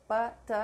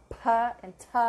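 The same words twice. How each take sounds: First: P and T with no puff of air; unexplosive P and T. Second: P and T with a loud puff of air; hard, aspirated "P and T"; explosive P and T. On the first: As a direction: say "P, T" without any burst of breath. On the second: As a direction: burst out the "P and T" with breath, louder. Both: Shown as a demonstration. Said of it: "They are not explosive".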